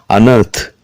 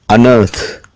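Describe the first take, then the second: Both takes have the same delivery.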